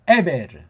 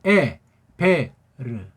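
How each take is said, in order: First: The word is said smoothly at normal speed. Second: The word is said slowly with a break.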